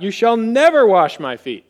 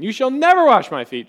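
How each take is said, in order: First: Sudden loud blurt, stress on never. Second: Higher, louder blurt hammering never. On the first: Peter to Jesus, a sudden loud blurt. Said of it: "he blurts out". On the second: Peter refusing Jesus, high loud blurt. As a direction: shoot it out before thinking. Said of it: "immediate thing that comes to his mind". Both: Acted.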